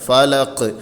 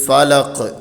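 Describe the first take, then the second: First: The final consonant ends with an echoing bounce. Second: The same.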